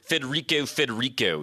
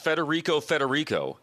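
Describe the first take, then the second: First: It is said in a Pittsburgh accent. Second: It is said in a plain accent.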